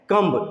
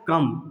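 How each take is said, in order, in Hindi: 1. इस शब्द के अंत में b की आवाज़ सुनाई देती है। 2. इस शब्द के अंत में b की कोई आवाज़ नहीं है। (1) "इसको लोग क्या पढ़ते हैं? कम्ब।" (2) "ये सही साउंड है"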